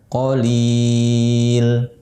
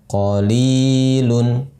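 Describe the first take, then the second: First: Long four-count vowel, stopping on the consonant. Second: Short two-count vowel, ending with -un. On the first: The reading stops on this word. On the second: The word is read joined to what follows.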